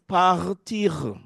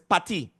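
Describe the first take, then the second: First: The final R sound is pronounced. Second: The final R sound is dropped. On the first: This is the French form. "The word to leave in French is partir" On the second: This is the patois form. "Part where is parti"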